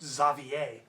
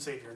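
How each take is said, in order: First: The name is said with the original French pronunciation. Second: The name is said with the modern English pronunciation. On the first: "would be the original French pronunciation" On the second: "That is the modern pronunciation"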